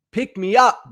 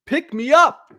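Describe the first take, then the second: First: Said in the usual way. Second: Higher, mock pleading "Pick me up"; a listener begging the host to lift the mood. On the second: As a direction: beg like a fan who wants cheering up. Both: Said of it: "I hear from a lot of you often".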